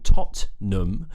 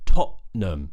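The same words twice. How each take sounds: First: The middle T is fully pronounced. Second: The middle T is a glottal stop. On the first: "instead of being Tottenham" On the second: "pronounce this with a glottal T in the middle"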